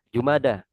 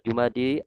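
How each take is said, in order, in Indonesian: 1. Kata itu berakhir dengan vokal 'a'. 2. Kata itu berakhir dengan vokal 'i'. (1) "Tapi yang betul adalah Jumada" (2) "Mungkin orang-orang yang bilang Jumadi"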